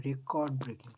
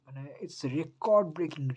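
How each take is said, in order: First: Said in the usual way. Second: Slow, high and loud "record breaking"; drawn-out thrilled "it's record breaking"; excited hype. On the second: Real, not acted. Hyping record advance sales.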